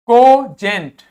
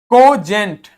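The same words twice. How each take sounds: The two takes are said the same way.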